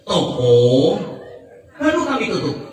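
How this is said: The pause comes right after the first word. The shop has just been closed by us.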